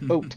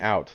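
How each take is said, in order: First: The vowel is a plain 'oh' sound. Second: The vowel is a gliding 'ow' sound. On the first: It imitates how people from Canada say it. "You gotta say oat, like O A T" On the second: It is the usual local way to say it. "instead of saying out"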